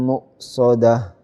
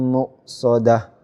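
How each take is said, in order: Both takes have the same delivery.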